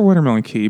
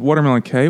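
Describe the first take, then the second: First: The last word rhymes with 'see'. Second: The last word rhymes with 'day'. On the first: "Like a key?" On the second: "I'm going to pronounce it K"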